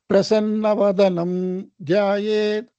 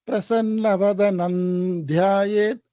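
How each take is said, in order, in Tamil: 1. முதல் வார்த்தை வெறும் ம் ஒலியில முடியுது. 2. முதல் வார்த்தை ந் ஒலியில முடியுது. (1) "அப்படி சொல்லாம" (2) "நக்காரா சொல்லணும்"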